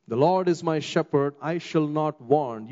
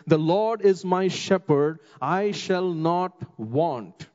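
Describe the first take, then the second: First: Said in the usual way. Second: Slow, weighty scripture read with each word set apart; slow solemn reading. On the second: Shown as a demonstration. Preacher reads the verse slowly and solemnly to the congregation. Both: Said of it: "it says".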